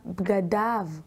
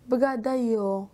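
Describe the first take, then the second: First: The word ends with an 'av' sound. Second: The word ends with a non-'av' sound. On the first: The speaker calls it right. "ולפניהן יש קמץ. לכן נקרא בגדיו" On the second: The speaker calls it wrong. "לא בגדיו"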